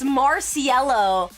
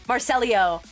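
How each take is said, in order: First: The name ends with a plain 'loh' sound. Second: The name ends with a 'lee-oh' sound. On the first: The speaker calls it right. "I think it's Marciello" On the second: The speaker calls it wrong. "the way that I'm saying it"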